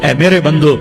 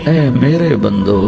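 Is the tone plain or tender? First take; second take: plain; tender. First: It is said in a plain, unaffectionate tone. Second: It is said in a soft, loving tone. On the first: The speaker calls it wrong. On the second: The speaker calls it right.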